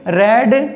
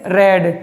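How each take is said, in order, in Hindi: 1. स्वर छोटा है, 'red' जैसा। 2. स्वर छोटा है, 'red' जैसा।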